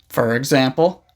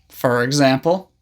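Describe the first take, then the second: The two takes are said the same way.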